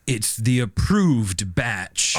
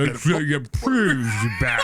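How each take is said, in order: First: It is said in a normal voice. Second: It is said in a put-on fish voice.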